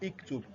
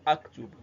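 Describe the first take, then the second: First: The first vowel is i. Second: The first vowel is a. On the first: "is not iktub" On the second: "is not aktub"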